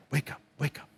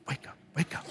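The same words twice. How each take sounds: First: Low, murmured wake up; murmured coaxing; soft wake-up call. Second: Breathy whisper, lower still; whispered wake-up. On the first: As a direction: coax her awake gently, much softer. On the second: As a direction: whisper it right in her ear. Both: Retold or imitated. Husband waking wife for love.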